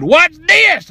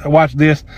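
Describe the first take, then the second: First: Very high, punched dare; defiant challenge. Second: Said in the usual way. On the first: Retold or imitated. Upset customer to worker stopping him, defiant challenge. His defiant catchphrase, acted out. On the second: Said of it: "that was kind of the theme".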